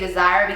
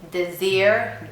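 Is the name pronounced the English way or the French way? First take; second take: English; French. First: It is pronounced like the English word. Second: It is pronounced the French way. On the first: The speaker calls it wrong. "because that's how it is in English" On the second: The speaker calls it right. "it's in French"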